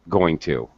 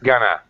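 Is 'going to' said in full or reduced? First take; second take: full; reduced. First: Both words are said fully and separately. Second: The words blend into one short reduced word.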